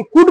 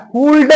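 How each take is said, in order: First: "कुड" short, with no L; high, crisp "कुड", straight to the D; silent L. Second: "कुल्ड" with L and D both sounded; wrong pronunciation. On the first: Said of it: "कुड म्हणायचं". ("कुड", ल न उच्चारता) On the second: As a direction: drag out "कुल्ड" as kool-duh. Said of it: "म्हणायचं नाही". ("कुल्ड", ल उच्चारून) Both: Shown as a demonstration.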